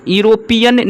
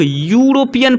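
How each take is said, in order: First: Higher "यूरोपियन" with an "ee" opening; teacher showing the mistake, "यूरोपियन" starting "iro-"; wrong pronunciation. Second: "यूरोपियन" begun with a clear "yoo"; teacher modelling "yuro-" at the start of "यूरोपियन"; correct pronunciation. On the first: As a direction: drop the y-glide: "यूरोपियन" as "ee-ropian". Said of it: "यूरोपियन नहीं पढ़ते हैं". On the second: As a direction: open "यूरोपियन" on a y-glide, "yoo-ropian". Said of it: "इसे हम लोग यूरोपियन पढ़ते हैं". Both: Shown as a demonstration.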